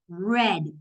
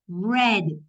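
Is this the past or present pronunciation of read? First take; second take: past; past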